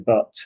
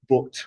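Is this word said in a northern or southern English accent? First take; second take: southern; northern. First: It is said with a southern English accent. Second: It is said with a northern English accent. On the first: "People in the south of England say but" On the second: "they say but"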